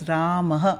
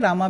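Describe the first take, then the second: First: The name ends with a breathy ah sound. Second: The name ends with a plain a vowel. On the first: The speaker calls it right. "सही pronunciation है राम, ... वो विसर्ग का pronunciation है अह" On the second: The speaker calls it wrong. "रामा भी गलत है"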